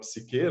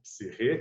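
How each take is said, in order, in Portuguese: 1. A consoante do meio é um som de k forte. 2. A consoante do meio é um som de h rascado.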